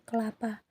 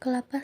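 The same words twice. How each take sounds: First: No vowel follows the first k sound. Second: A vowel follows the first k sound.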